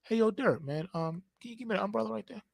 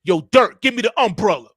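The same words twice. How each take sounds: First: Very soft, quick, casual ask; gentle polite request. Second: Loud, forceful order; rough demand. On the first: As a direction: ask lightly, almost under the breath. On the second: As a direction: fire it off as a hard command. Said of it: "talking to me so rough". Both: Shown as a demonstration.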